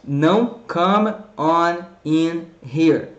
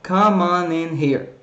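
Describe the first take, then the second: First: "come on in here" said slowly with each word cut apart; choppy separated. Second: "Come on in here" run together in one smooth flow; joined up. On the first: Teacher showing the mistake of splitting words, slow and choppy. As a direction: chop it word by word, the wrong way. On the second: Teacher showing the right way, smooth and linked. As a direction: link every word into the next. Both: Shown as a demonstration.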